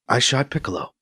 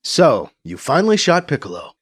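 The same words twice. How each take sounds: First: Flat, emotionless. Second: Said in the usual way. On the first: A narrator's reading. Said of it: "repeats without emotion". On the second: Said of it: "says in an even tone".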